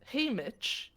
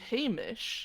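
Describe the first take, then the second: First: The name has a clear T sound before the ch. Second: The name has no T sound, ending in sh. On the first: "I say Haymitch. ... there's a T in there" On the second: "you say Hamish"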